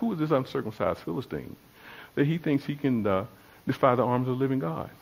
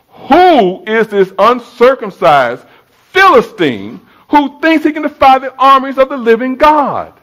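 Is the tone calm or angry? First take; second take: calm; angry. First: It is said in a calm, mild tone. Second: It is said in an angry tone.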